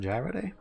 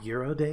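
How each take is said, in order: First: The first word does not sound like 'euro'. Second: The first word sounds like 'euro'.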